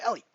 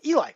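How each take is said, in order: First: Ellie said EL-ee, ending in "ee"; correct pronunciation, Ellie. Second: Eli said EE-lie, rhyming with lie; mispronunciation of Eli. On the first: Streamer showing the player's preferred name, Ellie as EL-ee. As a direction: say Ellie with short e, then "ee". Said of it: "instead of Ellie". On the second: Streamer showing how people get the name wrong, Eli as EE-lie. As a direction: say Eli with a long "eye" ending. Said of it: "people mispronounce his name as". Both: Shown as a demonstration.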